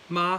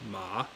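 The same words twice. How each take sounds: First: The pitch stays high and level. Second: The pitch dips low before rising. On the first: "the first one is ma, high flat tone" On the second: "and then third tone, ma"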